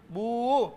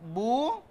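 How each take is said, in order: First: The vowel is held long. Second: The vowel is held short. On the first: "menjadi panjang" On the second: "tidak boleh dibaca panjang karena tidak ada waw sukun"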